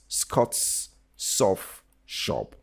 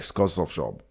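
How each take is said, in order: First: Each word is said separately, one by one. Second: The words are run together like one word. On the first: The speaker calls it right. "you need to pronounce these words one by one" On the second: The speaker calls it wrong. "Don't don't don't make them one word like"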